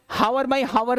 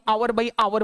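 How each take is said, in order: First: Hour begins with an h, two syllables. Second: Hour has no h, two syllables. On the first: "हावर by हावर नहीं बोलते" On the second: "ना ही आवर by आवर बोलते हैं"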